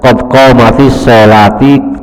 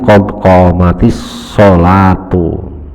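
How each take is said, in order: First: The last word ends with an -i vowel. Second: The last word ends with a -u vowel. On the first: The speaker calls it wrong. "daripada qad qamatis sholati" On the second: The speaker calls it right. "bukan qad qamatis sholati, tapi qad qamatis sholatu"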